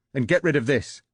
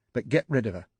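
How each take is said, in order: First: Louder, higher furious command; angry shout. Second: Firm angry command; stern order. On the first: Wife to husband about the tape, furious shout. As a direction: let it burst out. Wife's angry ultimatum peaks. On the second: Wife to cheating husband, stern angry order. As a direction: lay down the law coldly. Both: Acted.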